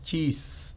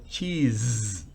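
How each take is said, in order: First: The final consonant is a hissing S sound. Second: The final consonant is a buzzing Z sound. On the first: The speaker calls it wrong. "No es cheese" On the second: The speaker calls it right. "sino cheese. Z, z"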